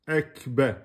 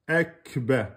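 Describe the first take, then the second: No difference in how they are said.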